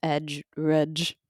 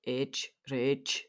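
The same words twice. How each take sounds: First: Scottish accent, rudge for rage. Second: Said in the usual way. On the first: Shown as a demonstration. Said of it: "If you're, like, Scottish". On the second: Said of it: "depends on your accent".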